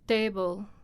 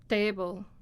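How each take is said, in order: First: The t is said in a natural, everyday way. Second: The t is said in a natural, everyday way.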